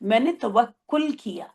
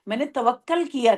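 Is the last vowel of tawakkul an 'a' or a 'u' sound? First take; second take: u; a. First: The last vowel of tawakkul sounds like 'u'. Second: The last vowel of tawakkul sounds like 'a'. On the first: The speaker calls it right. "तब हम कहेंगे तवक्कुल" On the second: The speaker calls it wrong. "वो गलत है।"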